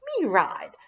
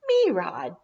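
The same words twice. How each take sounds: First: Lightly voiced little kid, insisting; toddler begging. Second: Lightly voiced little kid, eager; a hint of a small child pleading; toddler begging. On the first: Tyler jumping up and down, lightly voiced toddler pleading. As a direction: keep begging like a tiny child. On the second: Tyler jumping, begging for rides, lightly voiced eager toddler. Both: A narrator's reading.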